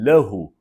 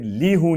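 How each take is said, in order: First: The first syllable has an 'a' vowel. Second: The first syllable has an 'i' vowel. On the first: The speaker calls it right. "तो मैं कहूँगा हाज़ल कलम लहू" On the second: The speaker calls it wrong. "फिर ली हूँ नहीं बोलूँगा"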